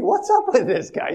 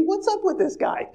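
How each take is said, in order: First: Lightly higher, puzzled brother's question; baffled brother. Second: Much higher, incredulous voice of a bewildered brother; baffled brother. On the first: Brother repeats his puzzlement, only slightly raised. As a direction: ask it flatly puzzled, less squeaky. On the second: Brother reacts to weeping Joseph, high and incredulous. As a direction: squeak it out in disbelief. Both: Retold or imitated.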